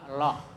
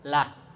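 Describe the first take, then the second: First: The L sound is heavy and thick. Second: The L sound is light and thin. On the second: "tipis itu bunyinya"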